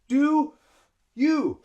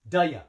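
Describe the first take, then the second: First: The two words are separate, with two breaths. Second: The two words blend into one, one breath. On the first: "I have to breathe two times" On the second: "we say duh ya like one word"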